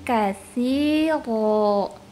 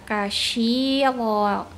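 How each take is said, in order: First: The middle consonant is a 'th' sound. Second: The middle consonant is an 'sh' sound. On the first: The speaker calls it right. "tapi kasiro" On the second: The speaker calls it wrong. "jangan dibaca kasyiro"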